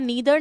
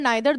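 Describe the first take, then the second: First: The first vowel sounds like 'ee'. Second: The first vowel sounds like 'eye'. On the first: "नीदर नाइदर दोनों pronunciation acceptable है" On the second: "नीदर नाइदर दोनों pronunciation acceptable है"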